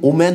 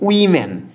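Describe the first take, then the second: First: The first syllable sounds like 'wo'. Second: The first syllable sounds like 'wi'. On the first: The speaker calls it wrong. "এটার উচ্চারণটা কিন্তু ওমেন না" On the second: The speaker calls it right. "এটা হচ্ছে উইমেন"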